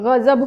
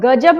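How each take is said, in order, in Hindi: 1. यह गले से निकलने वाली, खरखराती 'gh' ध्वनि से शुरू होता है। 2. यह सादी कठोर 'g' ध्वनि से शुरू होता है। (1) "ग पैर बिंदी वाले शब्द" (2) "नहीं"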